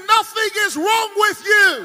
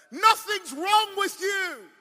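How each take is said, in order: First: High, very loud declaration; full-force preaching shout. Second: Slow, high, preached verdict; emphatic pronouncement. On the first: Real, not acted. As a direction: shout the verdict over the whole crowd. Preacher repeats verdict to crowd. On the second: Acted. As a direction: stretch "Nothing's wrong" out high and firm. Doctor's verdict acted in preaching climax.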